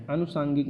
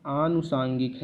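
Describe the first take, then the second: First: अनुसांगिक with a short opening "a"; wrong short first vowel. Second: आनुसांगिक with a drawn-out opening "aa"; long first vowel. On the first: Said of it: "आनुसांगिक है". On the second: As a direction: open आनुसांगिक on a long "aah". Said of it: "अनुसांगिक नहीं है". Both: Shown as a demonstration.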